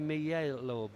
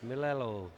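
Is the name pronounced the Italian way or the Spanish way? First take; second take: Spanish; Italian. First: The name is pronounced the Spanish way. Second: The name is pronounced the Italian way. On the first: The speaker calls it wrong. "If he was Spanish, I'd say" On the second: The speaker calls it right. "he is Italian"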